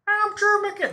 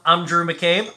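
First: It is said in a put-on character voice. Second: It is said in his natural own voice.

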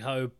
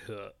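First: The name is said the anglicized way. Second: The name is said the Chinese way. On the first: This is the casual everyday form. The speaker calls it wrong. "in normal conversation, I would just say Dirty Ho" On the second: This is the proper form of the name. The speaker calls it right. "because that is the proper pronunciation"

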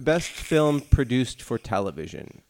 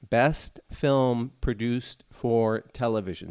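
First: It is said at a normal, quicker pace. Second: It is said more slowly and deliberately.

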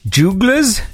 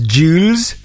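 First: The middle G sound is clearly pronounced. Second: The middle G sound is left silent. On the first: "Is the G silent?" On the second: "Am I supposed to pronounce this Jules?"

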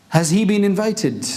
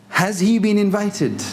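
The two takes are said the same way.

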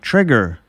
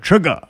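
First: The word ends with an r sound. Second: The word ends with an open ah sound. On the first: The speaker calls it wrong. "Joel said, like" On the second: The speaker calls it right. "you got to say it with an A"

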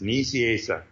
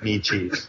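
First: The name is said with four syllables. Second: The name is said as two words, knee cheese. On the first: This is the name's real pronunciation. The speaker calls it right. "It's exactly how it's written" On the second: This is a joke pronunciation of the name. The speaker calls it wrong. "like knee and cheese"

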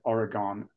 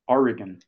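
First: The last syllable has a full, clear vowel. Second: The last syllable has a weak, reduced vowel. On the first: The speaker calls it wrong. "I was pronouncing it Oregon as I pronounce Maryland and Newfoundland" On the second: The speaker calls it right. "So I'm now Oregon, trying to get it right"

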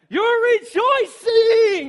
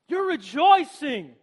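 First: It is said with wild, cheering excitement. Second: It is said in a flat, subdued way.

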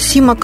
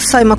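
First: The first vowel sounds like 'ee'. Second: The first vowel sounds like 'eye'. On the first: This is the name's proper pronunciation. "Правильно, фамилия звучит даже Симак" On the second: This is how the name is printed locally. "но Саймак, он подписывается у нас"

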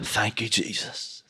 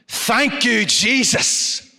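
First: It is said in his normal voice. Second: It is said in a preacher's voice.

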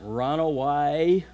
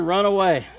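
First: It is said in a Forrest Gump voice. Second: It is said in a normal voice.

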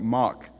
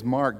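First: It is said in a South African accent. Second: It is said in an American accent.

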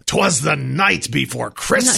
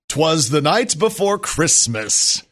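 First: It is said in a gravelly put-on voice. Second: It is said in a natural, more powerful voice.

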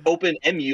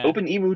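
First: Emu is said like the start of emulator. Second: Emu is said like the name of the bird. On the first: "like Open Emulator" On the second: "I've always said it that way"

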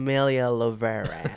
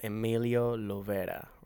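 First: The name is said with an American pronunciation. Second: The name is said with a Spanish pronunciation.

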